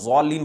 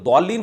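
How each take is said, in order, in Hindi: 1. पहला व्यंजन z जैसा सुनाई देता है। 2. पहला व्यंजन d जैसा सुनाई देता है। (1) "मुशाबे का मतलब ये नहीं कि बिल्कुल ज़ालीन पढ़ा जाए" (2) "जो दौलीन पढ़ते हैं ये बिल्कुल गलत है"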